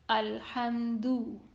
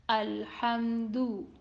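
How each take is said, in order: First: The final vowel is a close 'oo' sound. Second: The final vowel is a close 'oo' sound.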